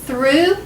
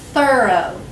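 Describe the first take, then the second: First: "Through" as one syllable, rising, ending in ooh; pronunciation drill. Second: "thorough" as two syllables, falling to a long O; pronunciation drill. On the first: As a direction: say "Through" higher, for repeating. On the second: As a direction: say "thorough" as THUR-oh, for repeating. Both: Shown as a demonstration. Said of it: "Say them with me".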